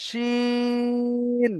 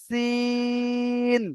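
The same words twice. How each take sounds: First: শিন with শি held long; long shin. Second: সিন with সি held long; long sin. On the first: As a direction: draw out শি, short ন. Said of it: "শিটা বলে টানটা করতে হবে". (শি টেনে শিন) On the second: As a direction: draw out সি, short ন. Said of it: "সি বলে টানটা করতে হবে". (সি টেনে সিন) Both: Shown as a demonstration.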